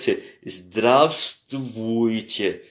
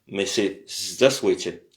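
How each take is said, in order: First: Every letter of the word is clearly sounded. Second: Some sounds in the middle are dropped. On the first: The speaker calls it wrong. "si on prononce tous les lettres" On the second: The speaker calls it right. "c'est aussi euh, contracté"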